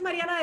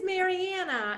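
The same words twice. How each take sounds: First: The name is said with a Spanish accent. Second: The name is said with an American accent. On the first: The speaker calls it right. "the way it was meant to be pronounced" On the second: The speaker calls it wrong. "sound sort of more American if I said"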